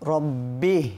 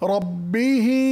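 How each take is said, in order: First: The word ends without its final vowel. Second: The word ends with a full final vowel. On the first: The reader stops at this word. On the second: The reader continues without stopping.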